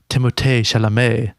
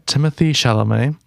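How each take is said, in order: First: The name is said with a French accent. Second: The name is said with an English accent.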